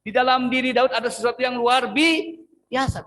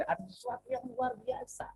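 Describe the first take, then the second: First: Higher and louder, stretched on biasa; emphatic repeat. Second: Soft, trailing delivery of the line; muted, almost thrown away; quiet first take. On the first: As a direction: say it again with full force. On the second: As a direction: let it fade away quietly. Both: Shown as a demonstration. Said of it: "Oke, saya ulang".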